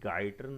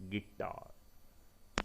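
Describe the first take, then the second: First: The first syllable sounds like 'guy'. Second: The first syllable sounds like 'gi'. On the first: The speaker calls it wrong. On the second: The speaker calls it right.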